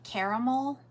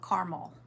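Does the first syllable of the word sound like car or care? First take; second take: care; car. First: The first syllable sounds like care. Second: The first syllable sounds like car. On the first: "Like care" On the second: "or car?"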